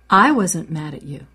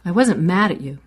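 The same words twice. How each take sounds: First: The word I is stressed. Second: The word mad is stressed. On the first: Someone else may have been mad. "Maybe someone else was mad, but I wasn't" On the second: A different feeling may have been present. "I might have been surprised, but I wasn't mad"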